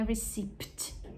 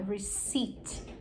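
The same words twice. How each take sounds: First: A p sound is pronounced before the final t. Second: No p sound is heard before the final t. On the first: The speaker calls it wrong. "não é receipt" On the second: The speaker calls it right. "Esse P é mudo"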